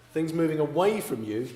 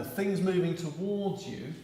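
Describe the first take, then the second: First: "away" stressed and a little louder, rising at the end; emphatic key point. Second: "moving" stressed, said slowly with a falling tune; slow emphatic key point. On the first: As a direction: hit "away" and let the voice rise on it. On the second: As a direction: lean on "moving" and spell it out slowly. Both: Shown as a demonstration. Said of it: "This is the bit you need to remember".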